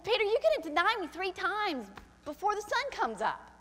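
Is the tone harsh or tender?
harsh. It is said in a harsh, accusing tone. It is an accusation. The speaker calls it wrong. "He didn't say it like that"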